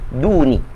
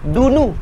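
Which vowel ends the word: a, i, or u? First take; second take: i; u. First: The word ends with an i vowel. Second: The word ends with an u vowel. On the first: The word follows a preposition. "maka tuan-tuan kena baca duni" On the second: The word acts as the subject. "maka dia baca baris depan lah"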